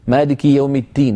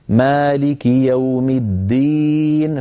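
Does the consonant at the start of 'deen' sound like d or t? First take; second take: t; d. First: The d in the last word sounds like t. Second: The d in the last word is fully voiced. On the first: The speaker calls it wrong. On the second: The speaker calls it right.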